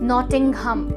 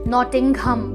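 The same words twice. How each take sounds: The two takes are said the same way.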